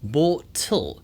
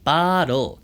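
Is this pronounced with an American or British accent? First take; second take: British; American. First: British accent, with a clear, crisp T. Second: American accent, with a soft, flapped T. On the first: "영국식으로는 또렷하게 bottle" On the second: "미국식으로는 bottle"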